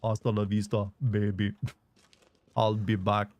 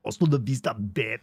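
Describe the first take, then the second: First: Low, flat robotic Austrian Arnold; deadpan Terminator in Austrian accent; cold robotic Austrian accent. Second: Wrong Arnold tone. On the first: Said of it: "in Arnold voice". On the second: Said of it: "doesn't use that tone of voice". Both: Retold or imitated.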